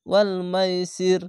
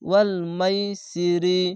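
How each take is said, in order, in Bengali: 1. বাক্যাংশটি একটি সাকিনযুক্ত ব্যঞ্জনধ্বনি দিয়ে শেষ হয়। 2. বাক্যাংশটি একটি হ্রস্ব স্বরধ্বনি দিয়ে শেষ হয়।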